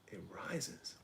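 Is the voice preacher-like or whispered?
whispered. The words are whispered softly. "Why am I whispering?"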